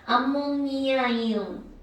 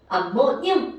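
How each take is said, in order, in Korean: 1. 모든 음절을 다 또렷이 발음합니다. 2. 음절들을 이어서 줄여 발음합니다. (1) "말을 이렇게 연결하잖아" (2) "쫙 빠르게 읽으니까"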